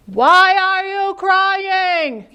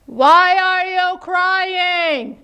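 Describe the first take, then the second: First: Very slow, higher echoed question. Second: Very slow, higher drawn-out question; very slow call. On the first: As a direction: echo it back slowly. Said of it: "said the voice". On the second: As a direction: stretch it across the pond. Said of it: "said Little Beaver". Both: Acted.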